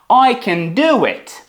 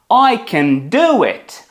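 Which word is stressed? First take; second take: do; do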